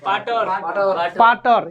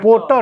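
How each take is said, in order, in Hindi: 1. पहला स्वर खुला 'aa' जैसा है। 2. पहला स्वर गोल 'o' जैसा है। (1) "पाटर नहीं होगा जी" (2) "पोटर होगा"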